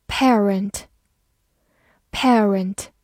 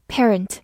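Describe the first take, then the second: First: "parent" with the long vowel of "pair"; pair-rent pronunciation. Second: "parent" with a short "pe" first syllable; American "parent", simple "pe" then "rent"; American pronunciation. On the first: Teacher reviews "parent" for learners, pair-rent pronunciation. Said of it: "P A R发pair". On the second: Teacher gives the alternative "parent", American pronunciation. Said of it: "或者美式发音". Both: Shown as a demonstration.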